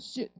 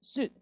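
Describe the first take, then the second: Both takes have the same delivery.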